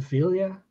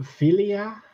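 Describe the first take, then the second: First: Vilya in two syllables, VEEL-ya; expected pronunciation. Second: Vilya as three syllables, FIL-ee-ah; clip's pronunciation. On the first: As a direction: say Vilya as "VEEL-ya", the contrasting form. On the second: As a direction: say Vilya as "FEE-lee-ah", rising at the end. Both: Shown as a demonstration. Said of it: "instead of Vilya".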